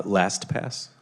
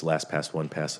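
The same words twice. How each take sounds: First: LastPass said slowly and distinctly; a slower, careful LastPass; slowed-down repeat. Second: Quick run-through of LastPass; said really fast. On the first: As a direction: repeat LastPass slowly for someone who missed it. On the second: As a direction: rattle off LastPass as one quick word. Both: Real, not acted. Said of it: "you say it really fast".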